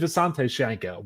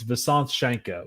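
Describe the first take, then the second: First: The first name ends in a vowel sound. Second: The first name ends in a consonant sound. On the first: The speaker calls it wrong. "I don't say" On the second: The speaker calls it right. "but it's"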